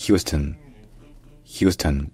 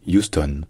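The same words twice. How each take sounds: First: "Houston" appuyé sur hyous, finale en schwa; prononciation anglaise accentuée. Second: "Houston" dit yous-tonne, sans h; prononciation francisée. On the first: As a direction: accentuer la première syllabe de "Houston". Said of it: "l'accent tonique est sur la première syllabe". (« Houston » à l'anglaise, hyous-teun) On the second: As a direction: dire "Houston" avec finale pleine. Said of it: "pour franciser ça, on peut dire". (« Houston » francisé, yous-tonne) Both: Shown as a demonstration.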